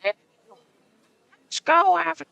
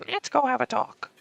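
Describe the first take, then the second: First: Put-on high, slow old lady voice. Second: Put-on high quavering old lady voice. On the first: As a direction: croak it like an old woman. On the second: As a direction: speak like a frail old woman. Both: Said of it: "do the fucking old lady voice".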